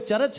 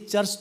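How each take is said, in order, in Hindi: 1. r को पूरे अक्षर की तरह बोला जाता है। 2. r एक छोटा और दबा हुआ व्यंजन है। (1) "वो आधा रा को पूरा रा बोलते हैं" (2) "चर्च तो बोलते नहीं है"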